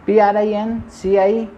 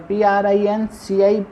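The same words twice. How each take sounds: The two takes are said the same way.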